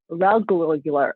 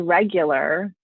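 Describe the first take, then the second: First: The word has an extra repeated 'lu' syllable. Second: The word is said normally, with four syllables. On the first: The speaker calls it wrong. "she says rel regulular" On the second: The speaker calls it right. "she can't say regular"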